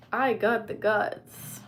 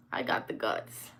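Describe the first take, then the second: First: Loud and drawn out, stress on I; slow loud boast. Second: Breathy whisper, low and hushed. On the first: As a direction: belt it out slowly, punching I. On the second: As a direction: whisper the dare back under your breath. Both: Shown as a demonstration.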